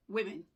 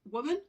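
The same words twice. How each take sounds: First: WOMEN said WIM-in, falling; plural pronunciation. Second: WOMAN said WUU-mun, higher, louder and rising; singular pronunciation. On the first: Teacher giving learners the plural, clearly pronounced WIM-in. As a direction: say WOMEN with a short i in both syllables. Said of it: "then the plural is women". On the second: Teacher giving learners the singular, clearly pronounced WUU-mun. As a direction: say WOMAN with a short oo first, lifted like a list item. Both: Shown as a demonstration.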